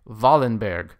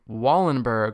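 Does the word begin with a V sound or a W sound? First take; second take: V sound; W sound. First: The word begins with a V sound. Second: The word begins with a W sound. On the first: "And the V, B, and I in Wallenberg reminds me of VBI" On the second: "instead of saying Wallenberg"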